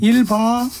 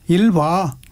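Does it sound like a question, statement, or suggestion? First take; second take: suggestion; statement. First: It is said as an urging suggestion. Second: It is said as a plain answering statement. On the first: Telling someone to go ahead and use it. "권유형" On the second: Answering that one is using the toilet. "대답"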